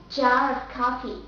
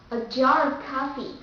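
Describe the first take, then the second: First: Jar of coffee in British English; British jar, R linked to "of"; British accent. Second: Jar of coffee with American R; American accent. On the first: Teacher giving the last example, British accent. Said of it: "the second will be British accent". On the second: Teacher giving the last example, American accent. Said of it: "The first will be American accent". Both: Shown as a demonstration.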